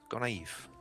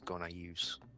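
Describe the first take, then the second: First: The name ends without an s sound. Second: The name ends with an s sound. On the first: The speaker calls it right. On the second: The speaker calls it wrong.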